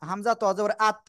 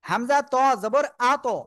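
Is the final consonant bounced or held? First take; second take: held; bounced. First: The final consonant is held without a bounce. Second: The final consonant is released with a quick bounce. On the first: The speaker calls it wrong. "অনেকেই কি উচ্চারণ করে জানেন" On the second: The speaker calls it right. "শক্তভাবে ধাক্কা দিয়ে"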